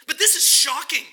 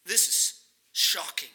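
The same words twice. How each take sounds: First: Loud, high, hammered home; emphatic exclamation. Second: Slowed and lowered, let it sink in; slow, weighty. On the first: Preacher to congregation, insisting it is shocking, loud and high. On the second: Preacher letting the shock sink in, slow and low. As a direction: drop the volume and drag it out. Preacher repeating the point softly. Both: Acted.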